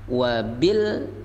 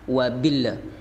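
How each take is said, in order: First: The L ends cleanly with no added vowel. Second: The L is followed by an added echoing vowel. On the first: The speaker calls it right. "yang tepat adalah jangan ada pantulan dalam huruf lam" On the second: The speaker calls it wrong. "kebanyakan mereka membaca wabilla, keasikan dengan huruf lam"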